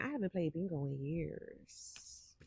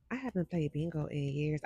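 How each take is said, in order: First: Whispered and slow, much softer. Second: Said in the usual way. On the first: Acted. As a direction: breathe it out like a secret confession. Confiding aside to viewers.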